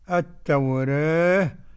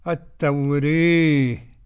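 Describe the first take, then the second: First: The vowel after r is between a and e. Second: The vowel after r leans strongly toward e. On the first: "تقليل" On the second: "إمالة"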